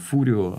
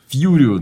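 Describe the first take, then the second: First: The name begins with a plain 'foo' sound. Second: The name begins with a 'fyoo' sound. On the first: This is the original Italian form of the name. "это по-итальянски он Фурио" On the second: This is how the other characters always say it. "они его все время зовут Фьюрио"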